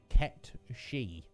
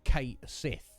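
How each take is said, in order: First: The name is said as 'Ket She'. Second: The name is said as 'Kate Sith'. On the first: The speaker calls it right. "the correct pronunciation of that word is Ket She" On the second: The speaker calls it wrong. "I always thought that was correct"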